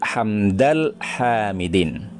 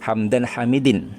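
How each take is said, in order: First: The first word links with an l sound. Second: The first word ends with an n sound. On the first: The speaker calls it right. "Yang betul" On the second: The speaker calls it wrong. "tidak boleh ataupun salah dari segi nahwunya"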